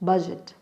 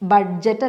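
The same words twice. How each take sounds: First: No d sound is heard before the j. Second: A distinct d sound comes before the j. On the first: The speaker calls it right. "ഡി അവിടെ ഇല്ല" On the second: The speaker calls it wrong. "ബഡ്ജറ്റ് അല്ല"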